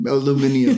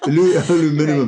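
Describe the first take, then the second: First: It has five syllables, the British way. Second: It has four syllables, the American way.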